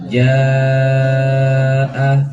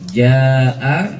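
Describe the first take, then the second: First: The vowel is held for four counts. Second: The vowel is held for two counts. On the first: "Kalau empat dua kali kepala" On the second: "dua harokat"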